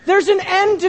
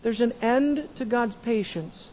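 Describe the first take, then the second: First: Higher, louder preached warning; forceful sermon warning; raised warning. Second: Much softer, sober restatement; hushed solemn warning; soft grave repeat. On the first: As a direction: sound the alarm from the pulpit. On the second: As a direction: drop the voice to let it land. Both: Shown as a demonstration.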